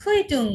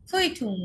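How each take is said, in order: First: অরেঞ্জে-like German demo, ফুইটুং said high and clear; German word demo. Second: ফুইটুং repeated high, falling at the end; German word repeated. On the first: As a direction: say ফুইটুং as a model word for the class. (German উচ্চারণে ফুইটুং, স্পষ্ট করে) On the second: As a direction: echo ফুইটুং for the students to copy. (German শব্দ ফুইটুং আবার বলা) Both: Shown as a demonstration. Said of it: "এটা হচ্ছে".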